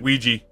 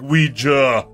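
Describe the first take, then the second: First: The word is said quickly with sounds run together. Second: The word is said carefully with every sound. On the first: "it's just easier for them to be like Ouija" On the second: "instead of like uh like Ouija"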